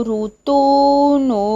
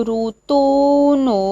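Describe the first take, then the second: Both takes have the same delivery.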